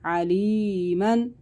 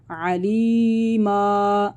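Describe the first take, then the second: First: अलीमन slowly recited with the final -न sounded; full tanween reading. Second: अलीमा recited slowly, ending on a long -ा instead of -न; pausal alif reading. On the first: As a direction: chant अलीमन with nunation. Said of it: "For example". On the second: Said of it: "अलिफ से बदलेंगे". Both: Shown as a demonstration.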